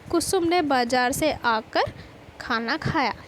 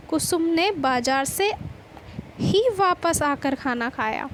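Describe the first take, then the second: First: कुसुम given the weight in the sentence; teacher's example with emphasis on कुसुम; stress on कुसुम. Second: बाजार से ही given the weight; teacher's example with emphasis on बाजार; stress on बाजार. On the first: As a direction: lean on the name कुसुम, then carry on evenly. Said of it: "कुसुम शब्द पर जोर पड़ते ही". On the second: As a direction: lean on बाजार से, pause, then ही. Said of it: "बाजार शब्द पर जोर देते हैं". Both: Shown as a demonstration.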